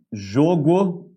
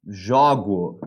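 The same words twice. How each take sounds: First: Jogo with closed o, jôgo, drawn out slowly. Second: Jogo with open o, jógo, as in eu jogo; jogo, jógo, open vowel. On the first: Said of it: "é pronúncia fechada". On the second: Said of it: "é pronúncia aberta". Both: Shown as a demonstration.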